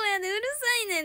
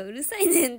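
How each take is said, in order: First: Punchy Kansai うるさいねん, fast and louder; Kansai dialect urusainen. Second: うるさいねん said with a laugh in Kansai tone; mock-scary Kansai うるさいねん; Kansai urusainen. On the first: Telling a Nagoya friend off in Kansai dialect, sharp. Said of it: "関西弁". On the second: Joking about how scary laughing Kansai scolding is. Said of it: "笑いながらうるさいねん". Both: Shown as a demonstration.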